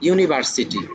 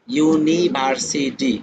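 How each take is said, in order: First: Said in the usual way. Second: "ইউনিভার্সিটি" very slowly, syllable by syllable; ভাগে ভাগে উচ্চারণ. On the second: Shown as a demonstration. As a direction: stretch "ইউনিভার্সিটি" into separate beats, ইউ-নি-ভার-সি-টি. ("ইউনিভার্সিটি" প্রতিটি ভাগ আলাদা করে টেনে টেনে) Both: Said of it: "চারের অধিক".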